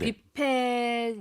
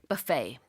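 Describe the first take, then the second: First: It is said with Korean pronunciation. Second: It is said with English pronunciation.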